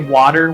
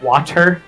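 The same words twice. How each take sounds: First: The middle consonant sounds like a D. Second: The middle consonant sounds like a T. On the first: This is how Canadians say it. "we say water with a D" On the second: This is how Canadians do not say it. "and not water"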